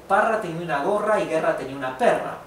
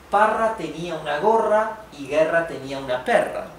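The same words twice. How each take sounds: First: It is read very fast. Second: It is read at a moderate pace.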